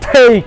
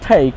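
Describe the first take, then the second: First: The word is said in an exaggerated, overdone way. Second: The word is said plainly, without exaggeration. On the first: The speaker calls it wrong. "একদম পোস্টপাস করে this is take এরকম না" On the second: The speaker calls it right. "take simply বলেন"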